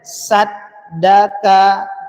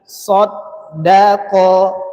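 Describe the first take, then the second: First: The first and last consonants sound thin. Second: The first and last consonants sound thick. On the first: The speaker calls it wrong. "dengan dibaca saddaka" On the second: The speaker calls it right. "so tebal, da tipis, qaf tebal"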